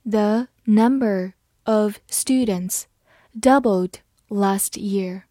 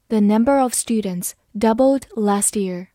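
First: Slow, careful model reading; slow demo for learners. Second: Said in the usual way. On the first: Shown as a demonstration. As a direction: read it slowly, word by word. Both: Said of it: "好，慢慢来读。".

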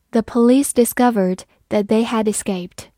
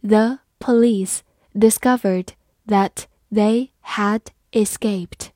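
First: Said in the usual way. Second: Slow, careful reading. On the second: Shown as a demonstration. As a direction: read it slowly for learners. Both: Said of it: "好，慢慢来读".

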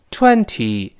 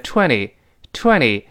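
First: "Twenty" with a clear second t, twen-tee; careful twenty. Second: "twenty" with the second t softened to d or lost; fast voiced twenty. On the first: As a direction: sound both t's in "Twenty". (“Twenty”第二个t读清楚) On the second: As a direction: say "twenty" as quick twen-dee. (“twenty”读快，t浊化) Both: Shown as a demonstration. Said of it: "读快门的twenty".

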